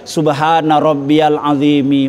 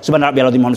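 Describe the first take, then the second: First: The phrase is recited slowly and calmly. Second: The phrase is recited quickly and hurriedly. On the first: The prayer is performed with proper stillness. The speaker calls it right. "Kalau dibaca pelan pelan-pelan lagi" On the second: The prayer lacks proper stillness. The speaker calls it wrong. "Tapi bacanya jangan cepet-cepet"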